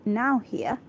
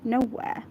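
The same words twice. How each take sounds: First: Nowhere misread as "now here"; misread word. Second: Nowhere said as NO-wair; corrected pronunciation. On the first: Real, not acted. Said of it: "is it a w-, one word?". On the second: Shown as a demonstration. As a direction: say nowhere as "no" plus "where". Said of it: "Yeah, it's nowhere".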